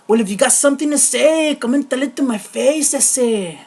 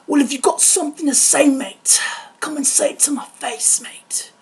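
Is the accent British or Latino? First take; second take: Latino; British. First: It is said in a Latino accent. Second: It is said in a British accent.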